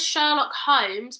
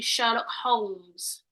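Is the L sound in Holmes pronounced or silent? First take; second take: silent; pronounced. First: Holmes is said with a silent L. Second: Holmes is said with the L pronounced. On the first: This is how most people say it. "everyone says Sherlock Holmes" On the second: The spelling has an L, so it should be sounded. "it's got an L in it. So I think it should should be Sherlock Holmes"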